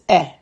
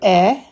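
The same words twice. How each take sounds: First: The vowel is short and quick. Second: The vowel is held longer. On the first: This is the reduced chatef segol vowel. "it's eh" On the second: This is the full segol vowel. "Instead of eh"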